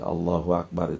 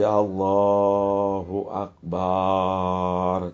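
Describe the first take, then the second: First: No added w and a short vowel after b. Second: The vowel after b in 'akbar' is lengthened. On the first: God is the greatest. The speaker calls it right. "Allah adalah yang maha agung" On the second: It would mean a drum. The speaker calls it wrong. "Jangan lagi dibaca panjang ba-nya"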